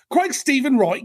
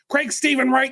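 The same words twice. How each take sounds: First: It is said in an Australian accent. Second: It is said in a Southern US accent. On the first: "So probably with an Australian accent" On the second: "Is is he from the South? Because I feel like his mama is"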